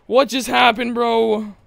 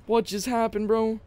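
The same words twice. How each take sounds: First: Raised-pitch, voiced-out bewilderment; baffled outcry. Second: Soft, raised-pitch repeat; baffled aside. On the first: Reacting to game event. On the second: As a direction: ask it softly, baffled. Repeats it more quietly. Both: Real, not acted.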